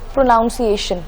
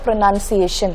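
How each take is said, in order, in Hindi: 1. दूसरा शब्दांश 'noun' जैसा सुनाई देता है। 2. दूसरा शब्दांश 'nun' जैसा सुनाई देता है। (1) "हम वर्ड बोलते हैं" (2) "बल्कि करेक्ट वर्ड है"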